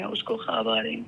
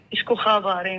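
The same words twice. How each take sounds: First: A quiet, lower echo of the line; hushed repeat. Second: Said in the usual way. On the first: Retold or imitated. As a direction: lower and softer, "اس کو خواب آ رہے ہیں" dropped to a murmur.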